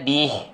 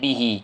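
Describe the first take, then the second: First: The word stops on the consonant without a vowel. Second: The final vowel is drawn out for two counts. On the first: The reader stops at this word. "Saya berhenti, tak ada mat" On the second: The reading continues on into the next word. "kalau saya silah sambung, saya akan baca bihi"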